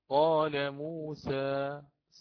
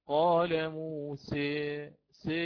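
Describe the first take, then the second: First: The final vowel is a medium open a. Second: The final vowel leans strongly toward e. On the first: "هكذا يفتح فتحا متوسطا لا شديدا" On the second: "والذي قرأ بالإمالة الكبرى بالإضجاع"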